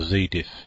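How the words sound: It is said in a North American way.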